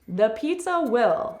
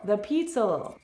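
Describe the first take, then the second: First: Will is said as a full separate word. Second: Will is reduced to a slight ul sound.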